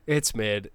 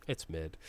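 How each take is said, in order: First: Said in the usual way. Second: Softer, lower muttered verdict. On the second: Real, not acted. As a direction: mutter "it's mid" under your breath.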